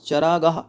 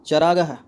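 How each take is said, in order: Both takes have the same delivery.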